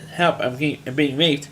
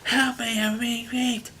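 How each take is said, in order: First: Unbothered, matter-of-fact plea; calm, almost casual cry for help. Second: High, strained mock cry for help; hammed-up scream for help. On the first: Retold or imitated. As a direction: say it as if reporting the weather. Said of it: "she just says very calmly". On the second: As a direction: shriek it out like a panicked victim. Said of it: "instead of screaming it out".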